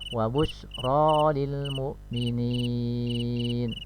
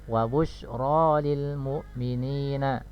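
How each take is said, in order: First: The last word ends on a bare n. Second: The last word ends with a short vowel. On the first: The reader stops at this word. "Kita wakaf maka dengan sukunkan huruf nunnya" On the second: The reading continues without stopping. "harokat terakhirnya adalah fathah"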